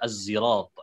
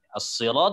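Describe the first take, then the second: First: The word's first consonant is a z-like sound. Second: The word's first consonant is an emphatic s.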